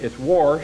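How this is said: Washed is said in an Iredell County accent.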